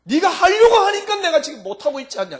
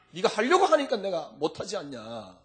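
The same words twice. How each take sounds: First: High, loud exasperated cry; Jesus pleading, high and loud. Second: A near-sob at normal level; tearful plea. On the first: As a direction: burst out in frustration. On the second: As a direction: plead with a catch in the voice. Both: Acted. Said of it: "이럴 겁니다, 아마".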